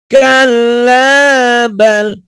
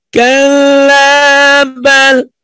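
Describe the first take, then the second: The two takes are said the same way.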